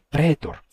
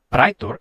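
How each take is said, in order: First: The first vowel sounds like 'e'. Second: The first vowel sounds like 'ai'. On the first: This is the rustic countryside accent. "e sim Caecilius e Praetor" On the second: This is the standard city pronunciation. "não se dizia Caecilius nem Praetor"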